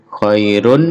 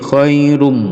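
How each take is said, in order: First: The word ends with a plain n sound. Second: The word ends with a long nasal m sound. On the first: "khairun menjadi khairum" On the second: "diganti mim mendengung dan dipanjangkan dengungnya"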